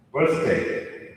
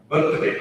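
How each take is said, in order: First: "birthday" in a neutral American accent. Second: "birthday" in a broad Indian accent. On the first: Coach showing the second word, neutral American accent. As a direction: pronounce it with an American English accent. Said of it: "American or someone with a neutral English accent". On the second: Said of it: "stereotypical Indian accent". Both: Shown as a demonstration.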